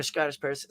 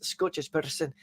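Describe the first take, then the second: First: Said in the usual way. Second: Soft try at a Scottish accent. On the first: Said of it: "start picturing a Scottish person". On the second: Shown as a demonstration. Streamer warming up his accent for viewers, tentative Scottish accent. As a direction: feel your way into a rough Scottish accent. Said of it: "where I start to get my Scottish accent".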